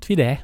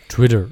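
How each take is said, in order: First: It is said in a Saarland accent. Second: It is said in standard German pronunciation.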